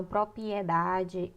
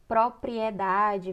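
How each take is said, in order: First: Propriedade with the second R dropped; common mispronunciation. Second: Propriedade slowly, both Rs sounded; careful correct pronunciation. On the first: Teacher showing how they say propriedade, slowly, without the second R. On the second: Teacher giving the word first, propriedade slow with every R sounded. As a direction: say propriedade slowly as "pro-pri-e-DA-de". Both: Shown as a demonstration. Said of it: "falam propriedade".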